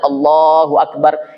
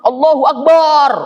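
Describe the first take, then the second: First: The vowel in Allah is drawn out long. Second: The vowel in Akbar is drawn out long. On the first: The speaker calls it right. "yang dipanjangkan Allahnya saja" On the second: The speaker calls it wrong. "itu teriak yang salah"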